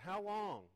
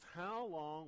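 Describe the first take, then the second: First: It is said in an angry, exasperated tone. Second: It is read in a calm, even tone. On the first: The speaker calls it right. "I think he was pretty hacked. How long? I think he said" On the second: The speaker calls it wrong. "the tone I'm reading this in is not the tone God used"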